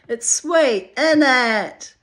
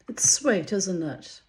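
First: It is said in a Cockney accent. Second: It is said in a plain, non-Cockney accent.

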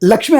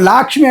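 First: The first vowel is kept short. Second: The first vowel is drawn out long. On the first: The name is understood when said this way. The speaker calls it right. "లక్ష్మి అంటే మీకు మెదడుకి అర్థమవుతుంది" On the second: The name is not recognized when said this way. The speaker calls it wrong. "లా అనే దీర్ఘం వచ్చింది"

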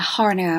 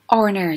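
First: The word begins with an audible h sound. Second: The word begins with a vowel; h is silent. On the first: The speaker calls it wrong. "chứ không phải là" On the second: The speaker calls it right. "Chữ H này là âm câm"

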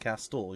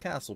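First: The T sound in the middle is pronounced. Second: The T sound in the middle is silent. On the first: The speaker calls it right. "You have to throw the extra T in there" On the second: The speaker calls it wrong. "Not the castle"

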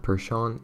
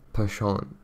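First: The word is said with an English pronunciation. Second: The word is said with an attempted French pronunciation. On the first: "In English, you know, it's being pronounced Percheron" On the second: "and in French, like, Percheron. No, it's definitely not like that"

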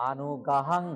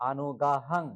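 The two takes are said the same way.

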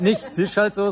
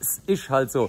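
First: The s in ist is a plain s sound. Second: The s in ist becomes a sh sound. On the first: The speaker calls it wrong. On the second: The speaker calls it right. "sondern ... Verzischungen"

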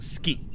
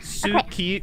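First: The vowel after the s is dropped. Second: The vowel after the s is fully pronounced. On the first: The speaker calls it right. "but it's pronounced ski" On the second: The speaker calls it wrong. "it's spelled suki"

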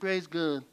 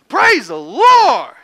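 First: It is said flat, without excitement. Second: It is said with excitement and surprise.

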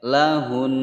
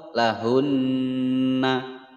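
First: The final n is held for two beats. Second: The final n is followed by a vowel a. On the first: The speaker calls it right. "ditahan dulu" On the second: The speaker calls it wrong. "Atau lahunna juga salah"

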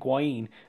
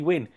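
First: The surname is said like 'new-yen'. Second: The surname is said like 'win'. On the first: The speaker calls it wrong. "I pronounced this guy's name wrong for quite a while. I kept saying" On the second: The speaker calls it right. "but it's Lee Wynn"

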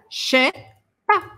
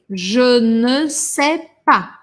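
First: Je and sais merge into one che sound. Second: Every word is said in full, including ne. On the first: It is even more informal speech. "um pouquinho mais informal" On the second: It is the most correct, careful form. "O mais correto seria eu falar je ne sais pas"

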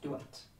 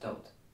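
First: The name is said in its Gaelic pronunciation. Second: The name is said in its anglicized pronunciation. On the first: This is how the name was said in the old language. "But in Gaelic, that was pronounced Duat" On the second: This is how the name is said today. "We pronounce it Dolt"

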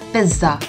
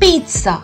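First: The middle consonant sounds like 'z'. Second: The middle consonant sounds like 'ts'. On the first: The speaker calls it wrong. "It's not a pizza" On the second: The speaker calls it right. "The z syllable in this is pronounced as a s"

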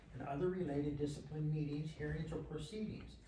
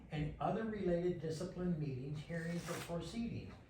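No difference in how they are said.

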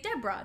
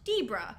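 First: The first vowel is the usual short one. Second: The first vowel is changed from the usual one. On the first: The speaker calls it right. "Just like you would say Debra" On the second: The speaker calls it wrong. "not Debra"

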